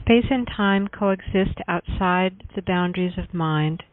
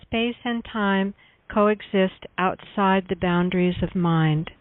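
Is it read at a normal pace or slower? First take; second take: normal; slower. First: It is read at a normal pace. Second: It is read a little more slowly.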